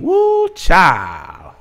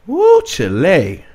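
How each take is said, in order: First: Put-on drawn-out high Woo, child; slow stretched Woo, pitched up; hammed-up old plantation accent; mock slavery accent. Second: Drawn-out high Woo, Chile; a hammed-up old plantation drawl; mock slavery accent. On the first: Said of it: "I hope I said that right". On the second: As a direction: stretch Woo slowly, pitched up. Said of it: "got my slavery accent on".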